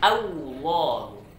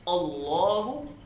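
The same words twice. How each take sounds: First: The first vowel is followed by a W sound. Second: The first vowel sounds like an O. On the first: "Jangan dibaca" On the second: "Jangan dibaca"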